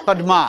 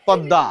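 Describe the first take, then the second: First: পদ্মা with a hard d and a clear m, "pod-ma"; spelling pronunciation. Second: পদ্মা as "pod-da", doubled d, slightly nasal; slightly nasal pronunciation. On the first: Teacher reads পদ্মা as spelt, "pod-ma". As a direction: sound out both d and m in পদ্মা. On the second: Teacher models পদ্মা as "podda", slightly nasal. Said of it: "একটু নাকে আসবে". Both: Shown as a demonstration.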